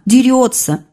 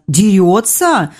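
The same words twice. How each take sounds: First: Said in the usual way. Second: Slow, drawn-out surprised question; woman echoing the boy in slow surprise; surprised drawl. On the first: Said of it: "спросила она". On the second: A narrator's reading. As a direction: stretch it out in surprise. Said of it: "с удивлением протянула Наталья".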